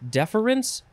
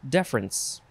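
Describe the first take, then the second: First: The word is said with three syllables. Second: The word is said with two syllables. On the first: "you can have three syllables" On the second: "or two syllables"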